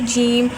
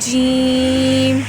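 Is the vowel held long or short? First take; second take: short; long. First: The vowel is cut short. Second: The vowel is drawn out long. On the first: The speaker calls it wrong. "अगर हम इसको छोटा पढ़ेंगे" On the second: The speaker calls it right. "जीम को हम हमेशा लंबा पढ़ते हैं इस तरह"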